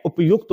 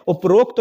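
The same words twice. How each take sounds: First: उपयुक्त said as up-yukt, with a y and no r; teacher saying उपयुक्त cleanly as up-yukt; correct form upyukt. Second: उपरोक्त said as u-pa-rokt, with an r and an o, the wrong word; teacher saying उपरोक्त as u-pa-rokt, the common mistake; wrong form uparokt. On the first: Teacher gives students the right form उपयुक्त, said up-yukt. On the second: Teacher shows students the wrong form उपरोक्त, said u-pa-rokt. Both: Shown as a demonstration. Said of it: "उपरोक्त नहीं होता है".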